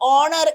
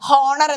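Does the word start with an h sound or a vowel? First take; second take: vowel; h sound. First: The word starts directly with a vowel. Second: The word starts with an h sound. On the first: The speaker calls it right. "ഓണർ എന്നല്ലേ പറയാ?" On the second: The speaker calls it wrong. "ശരിക്കും അത് വായിക്കുകയാണെന്നുണ്ടെങ്കിൽ ഹോണർ എന്നാണ്"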